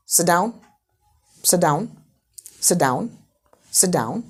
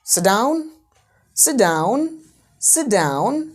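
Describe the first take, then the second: First: "sit down" as a short, firm order; falling intonation order. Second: "down" drawn out and swung upward, as a request; rising intonation request. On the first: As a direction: give "sit down" as a brief command. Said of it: "उस पे लगाया falling intonation". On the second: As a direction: stretch "down" and lift it at the end. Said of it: "sit down को ही rising में बोला". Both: Shown as a demonstration.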